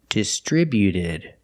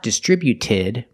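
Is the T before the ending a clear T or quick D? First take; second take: quick D; clear T. First: The T before the ending is a quick D. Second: The T before the ending is a clear T. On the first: The speaker calls it right. "so it's a fast D. ... but distributed" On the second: The speaker calls it wrong. "Not distributed"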